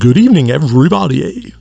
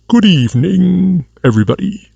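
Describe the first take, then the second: First: It is said in his normal voice. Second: It is said in a Dracula impersonation voice.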